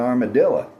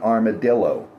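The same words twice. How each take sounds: First: It is said with a Texan pronunciation. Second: It is said with a standard pronunciation. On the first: "That's an armadillo" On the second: "not an armadillo"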